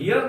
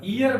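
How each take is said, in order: First: The word starts with a pronounced h sound. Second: The word starts with a vowel, no h. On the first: The speaker calls it wrong. "इसको हियर नहीं बोलिएगा" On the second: The speaker calls it right. "यहां पर ईयर बोलिएगा इसको"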